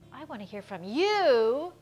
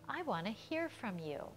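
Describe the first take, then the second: First: The stress falls on the word you. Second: The stress falls on the word hear. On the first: The speaker calls it wrong. "We don't say" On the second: The speaker calls it right. "We are stressing here much more than we ever stress you in normal contexts"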